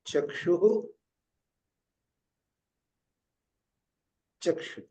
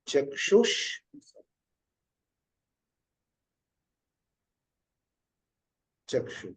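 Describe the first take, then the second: First: The first word ends in a breathy h sound. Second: The first word ends in a linking sh sound. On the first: "एक उच्चारण पंचमहायज्ञ विधि के अनुसार है" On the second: "संस्कार विधि के अनुसार दूसरा उच्चारण है"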